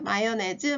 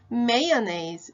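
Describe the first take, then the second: First: It is said as Korean ma-yo-ne-jeu. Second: It is said with English may-uh-naze sounds. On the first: The speaker calls it wrong. "마요네즈 마가린 아니고요" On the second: The speaker calls it right. "큰 소리 따라 해봐요"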